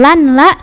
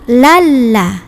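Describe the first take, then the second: First: An n sound is heard before the l. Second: The n merges into a doubled l. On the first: The speaker calls it wrong. "bukan lan la" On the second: The speaker calls it right. "tapi lalla"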